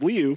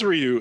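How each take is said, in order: First: The name begins with a soft L-like sound. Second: The name begins with a clear R sound. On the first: This is how the name is said in Japanese. "that is Liu, that there is no R in the Japanese dialect" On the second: This is how video game fans say the name. "That is Ryu. That's how, you know, us Street Fighter gamers have pronounced it"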